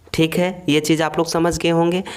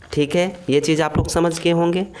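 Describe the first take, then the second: The two takes are said the same way.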